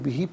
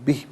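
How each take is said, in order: First: The word ends with a long vowel sound. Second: The word ends on a consonant, vowel dropped. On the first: The reading continues without stopping here. "इसे यब्लूकुमुल्लाहु बिही पढ़ेंगे" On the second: The reader stops at this word. "वफ़ की सूरत में बिह पढ़ा जाएगा"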